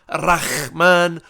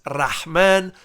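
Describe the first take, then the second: First: The middle consonant is a raspy throaty kh. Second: The middle consonant is a soft breathy h. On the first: The speaker calls it wrong. "not Rahman, the way Ariel Hawani say it. There's no kha" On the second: The speaker calls it right. "it's the ha"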